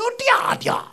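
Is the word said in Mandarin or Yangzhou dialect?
Yangzhou. It is said with Yangzhou dialect pronunciation. "叫嗲嗲"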